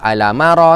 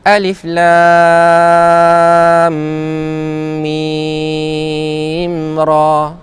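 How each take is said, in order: First: The letters are merged into one short word. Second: Each letter name is said separately in full. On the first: The speaker calls it wrong. "dia baca Alamara ke ... bacaan tu salah" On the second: The speaker calls it right. "kalau dia tak baca Alif Lam Mim Ra"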